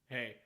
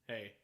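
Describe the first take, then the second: First: The pitch stays level on the word. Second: The same.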